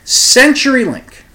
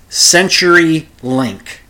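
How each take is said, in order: First: CenturyLink said high, loud and slow; pointed name drop. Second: CenturyLink said slowly and pointedly, falling; drawn-out name reveal. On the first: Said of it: "You decide for yourself". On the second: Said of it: "I'll say their name". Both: Shown as a demonstration.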